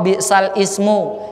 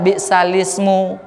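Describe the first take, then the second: First: The hamza of ismu is pronounced separately. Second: The hamza is dropped, joining the words. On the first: This is how it is written. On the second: This is how it is recited.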